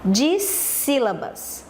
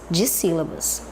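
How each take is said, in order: First: "Dissílabas" very slowly, stretching the first syllables; slow, teacherly "Dissílabas"; slow term announcement. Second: Said in the usual way. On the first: Shown as a demonstration. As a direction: draw out "Dissílabas" so pupils catch the term. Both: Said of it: "Como é o nome?".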